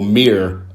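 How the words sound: It is said with an American accent.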